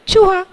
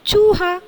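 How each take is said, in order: First: The first vowel u is short. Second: The first vowel u is long. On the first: The speaker calls it wrong. "पहला चूहा ये क्या है? गलत है।" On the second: The speaker calls it right. "उच्चारण कौन सा सही है? दूसरा वाला"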